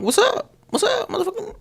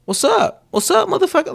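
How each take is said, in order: First: Very high, squeaky, hammed-up greeting; grumpy morning greeting. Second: Much higher, sing-song hostile greeting; mock girlfriend greeting. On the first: Girlfriend who woke up on the wrong side of the bed, very high and squeaky. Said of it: "you talking, like". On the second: Girlfriend greeting her partner every time, much higher and mocking. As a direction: greet him sweetly but with a threat underneath. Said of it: "she like".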